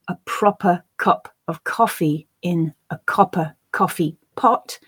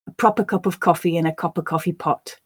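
First: It is said slowly with full small words. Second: It is said faster with reduced small words.

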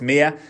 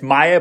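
First: The first vowel sounds like 'ee'. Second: The first vowel sounds like 'eye'. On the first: The speaker calls it right. "it's Mia" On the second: The speaker calls it wrong. "Some people are saying it's Maya, but it's not"

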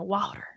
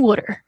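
First: It is said with a Texas-style pronunciation. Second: It is said with a Philadelphia-style pronunciation. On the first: This is how someone from Texas says it. "my mom's from Texas, and she calls everything water" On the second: This is how someone from Philadelphia says it. "my dad is from this area, so he calls everything water"

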